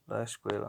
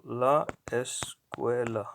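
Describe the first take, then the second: First: Said in the usual way. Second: "la escuela" slowly, broken into la, es, cuela; slow word-by-word demo. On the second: Shown as a demonstration. Teacher showing the definite article, slow and syllable by syllable. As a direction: sound out "la escuela" with gaps between syllables. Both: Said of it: "definite article".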